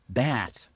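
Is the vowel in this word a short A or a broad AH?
short A. The vowel is a short A sound. "Americans pronounce the word baths with a short A sound"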